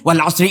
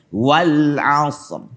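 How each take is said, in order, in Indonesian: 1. Dibaca tergesa-gesa, bunyinya saling menyambung dan kabur. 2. Dibaca pelan dan tenang, setiap bunyi terdengar jelas. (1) "Kalau orang yang buru-buru"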